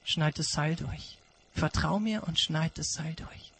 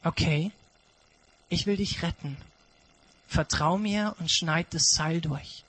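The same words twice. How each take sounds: First: An echo of God's words, haunting; quiet haunting repeat; hushed God voice. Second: A gentle command to trust; quiet reassuring God; calm God voice. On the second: God answers the climber. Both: Acted.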